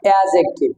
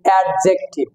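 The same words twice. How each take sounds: First: The d sound is left silent before the j. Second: The d sound is pronounced before the j. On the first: The speaker calls it right. "আসলে হবে হলো অ্যাডজেক্টিভ, এই ডিটা silent হবে" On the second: The speaker calls it wrong. "অনেকে বলছি অ্যাডজেক্টিভ"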